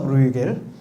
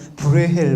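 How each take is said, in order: First: The middle consonant is a hard 'g' sound. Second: The middle consonant is a breathy 'h' sound. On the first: This is the way people have usually said it. "우리는 브루겔이라고 하는데" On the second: This is the way the current rules say to pronounce it. "브레헬 뭐 이렇게 발음해야 되는데요"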